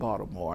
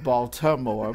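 First: The name is said in a local, reduced way. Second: The name is said in the standard, full way. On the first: This is how people there say it. "they said Baltimore" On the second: This is how outsiders say it. "instead of Baltimore"

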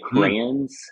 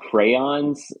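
First: The word is said in a Louisville, Kentucky accent. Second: The word is said in a South Georgia accent. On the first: This is how the speaker's children say it. "which is Louisville, Kentucky dialect" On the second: This is how the speaker said it growing up. "like I did in South Georgia growing up"

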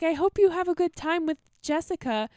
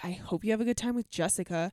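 First: It sounds warm and sincere. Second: It sounds snide and sarcastic.

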